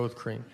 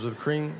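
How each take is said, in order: First: Low, soft, deadpan confirmation; confirming reply. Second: Querying echo of the order; questioning barista. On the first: Customer confirms to a confused barista, low patient reply. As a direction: answer lower, holding patience. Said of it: "I go". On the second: Barista asks the customer yet again, questioning echo. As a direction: check it as if still unsure. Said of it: "She goes". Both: Retold or imitated.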